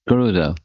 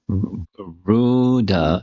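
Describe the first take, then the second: First: Every vowel in the name is kept short. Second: A vowel in the name is drawn out long. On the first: The speaker calls it right. "It's Garuda" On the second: The speaker calls it wrong. "it's not Garuda because there's no elongation"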